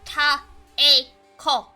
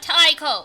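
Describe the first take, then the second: First: The first syllable sounds like 'ta-eh'. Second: The first syllable sounds like 'tie'. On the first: The speaker calls it right. "It's Taeko" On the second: The speaker calls it wrong. "It's not Taiko"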